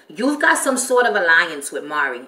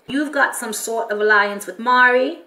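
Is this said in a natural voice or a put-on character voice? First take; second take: natural voice; put-on voice. First: It is said in the speaker's natural voice. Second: It is said in a put-on character voice.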